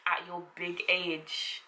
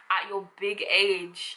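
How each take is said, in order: First: Slow, soft disdainful put-down; scornful. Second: Slow, stretched put-down at normal level; condescending. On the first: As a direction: drag out "At your big age." with contempt. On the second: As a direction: drawl "At your big age." patronizingly. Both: Shown as a demonstration. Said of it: "If they're doing something just dumb".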